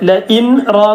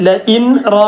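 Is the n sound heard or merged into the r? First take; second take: heard; heard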